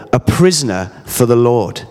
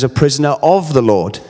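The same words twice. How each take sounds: First: Said in the usual way. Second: "of" stressed against the rest of the phrase. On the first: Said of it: "In other translations". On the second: Shown as a demonstration. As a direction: lean on the word "of" to mark the changed wording. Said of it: "In other translations, it says".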